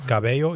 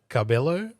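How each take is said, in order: First: The name has a Spanish-style pronunciation. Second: The name has an English-style pronunciation.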